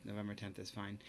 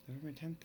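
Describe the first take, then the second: First: Said in the usual way. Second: November tenth asked back with a rising, unsure lift; puzzled self-check; doubtful question. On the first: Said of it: "not gonna make a big deal". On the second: Real, not acted. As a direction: question the date as if it looks wrong. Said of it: "seems off".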